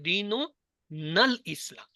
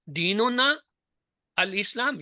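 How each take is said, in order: First: The words 'na' and 'al' are joined together. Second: The words 'na' and 'al' are said separately. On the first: "दोनों को मिला दें" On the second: "इसको पढ़ने का दो तरीके"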